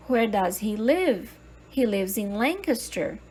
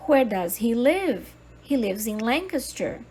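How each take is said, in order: Both takes have the same delivery.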